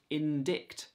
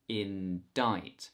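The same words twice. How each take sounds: First: A k sound is heard before the t. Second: No k sound is heard before the t. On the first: The speaker calls it wrong. "looks like it should be pronounced indict" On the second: The speaker calls it right. "we don't pronounce the C"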